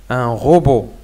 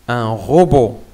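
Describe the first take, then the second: The two takes are said the same way.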